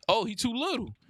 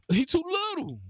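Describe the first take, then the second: First: Said in the usual way. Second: High, sing-song jeer at the defender; mocking taunt. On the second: Real, not acted. Gamer mocking the little defender guarding him, high and teasing.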